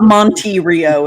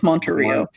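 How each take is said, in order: First: The E in the middle is said fully and hard. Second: The E in the middle is said softly. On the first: The speaker calls it wrong. "It's not Monte Rio" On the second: The speaker calls it right. "The E is soft"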